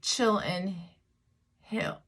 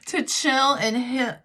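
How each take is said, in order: First: It is said without a Southern accent. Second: It is said in a Southern American accent. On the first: The speaker calls it wrong. "it doesn't sound right if I say it the other way" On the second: The speaker calls it right. "That's my southern accent coming out"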